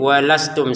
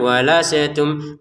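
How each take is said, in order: First: The s goes straight into the t. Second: The s bounces with an added vowel. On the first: The speaker calls it right. "sinnya jangan dipantulin, walastum saja" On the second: The speaker calls it wrong. "jangan walasetum"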